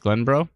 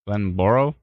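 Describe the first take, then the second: First: The name is said with two syllables. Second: The name is said with three syllables. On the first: The speaker calls it right. "it's spelt Glenboro, but it's Glenbro?" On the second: The speaker calls it wrong. "What did I say? Glenboro?"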